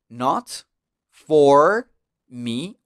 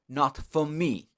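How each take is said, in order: First: The R in 'for' is clearly pronounced. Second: The R in 'for' is dropped, softer.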